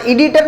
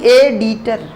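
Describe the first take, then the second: First: एडिटर begun with an 'ee' sound; the mistaken 'ee-ditor' for एडिटर; rejected pronunciation. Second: एडिटर begun with a clear 'ay' vowel; corrected pronunciation. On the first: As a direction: say एडिटर as ee-DEE-ter. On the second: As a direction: say एडिटर as AY-dee-ter. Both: Shown as a demonstration. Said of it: "एडिटर नहीं".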